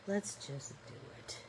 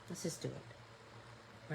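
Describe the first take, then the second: First: Soft whisper to herself. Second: Slow whisper to herself. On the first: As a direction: let it slip out as a whisper. Repeats it to herself. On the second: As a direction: breathe it under the breath. Murmuring to herself while painting. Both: Real, not acted.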